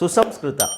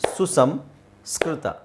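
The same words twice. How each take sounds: First: The word is said even more quickly. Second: The word is said quickly. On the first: "ಇನ್ನು ನಾಲ್ಕು ಸ್ಪೀಡಲ್ಲಿ ಹೇಳಿದರೆ" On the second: "ಸ್ಪೀಡಾಗಿ ಹೇಳಿದ್ರೆ"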